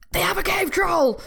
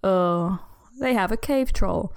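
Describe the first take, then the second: First: It sounds urgent and excited. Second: It sounds flat and tired.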